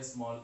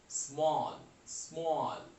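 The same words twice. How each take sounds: First: Said in the usual way. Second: small stretched as one unbroken sound; single drawn-out syllable. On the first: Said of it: "इसलिए क्या हो गया". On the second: Shown as a demonstration. Teacher showing one mouth opening, small drawn out whole. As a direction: demonstrate small in one long, falling syllable. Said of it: "एक ही मुंह खुला और बात हो गई".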